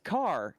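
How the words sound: The vowel is an open 'ah' sound. "he says car"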